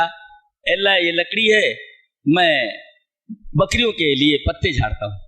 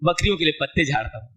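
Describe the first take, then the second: First: Slow, lightly voiced humble reply; humble Moses. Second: Said in the usual way. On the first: Preacher voicing Moses answering God, slow and humble. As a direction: answer plainly and slowly, like a humble servant.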